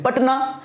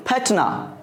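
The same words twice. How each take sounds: First: पटना with a plain, hard p; British pronunciation. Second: पटना said as फटना, p turned breathy; mock American pronunciation. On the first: Teacher showing students the British way to say पटना. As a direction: say पटना with a clean unaspirated p. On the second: Teacher joking to students how Americans say पटना. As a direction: blow the p so पटना comes out फटना. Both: Shown as a demonstration. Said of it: "लेकिन American में क्या बोलेंगे?".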